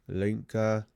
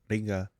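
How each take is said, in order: First: The name begins with an L sound. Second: The name begins with an R sound. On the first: "the R's could be like le" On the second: "or Rinka"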